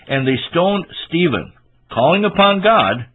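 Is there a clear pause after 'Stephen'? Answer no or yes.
yes. There is a clear pause after Stephen. The one being stoned was calling upon God. The speaker calls it right. "That was Stephen calling upon God"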